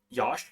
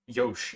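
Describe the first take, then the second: First: The vowel sounds like the one in Josh. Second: The vowel sounds like the one in Yoshi. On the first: "as in like Josh, but with a Y" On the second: "as in like you know Yoshi without an I"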